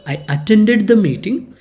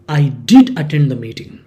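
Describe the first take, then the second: First: Said in the usual way. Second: Did hit firmly, quicker pace; emphatic did. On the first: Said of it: "Instead of saying". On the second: Shown as a demonstration. Employee insisting to the boss, did stressed. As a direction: stress on did in I did attend the meeting. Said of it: "in emphatic way".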